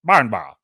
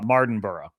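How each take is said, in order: First: The name is said in a British accent. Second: The name is said in an American accent.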